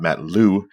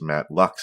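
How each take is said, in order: First: The surname ends without any x sound. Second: The surname ends with a clear x sound. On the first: The speaker calls it wrong. "not Matt Lou" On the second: The speaker calls it right. "it is Matt Lux"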